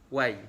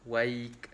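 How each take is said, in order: First: The word ends on a vowel sound. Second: The word ends with a k sound. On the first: "Wai saja" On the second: "berhenti dengan waik"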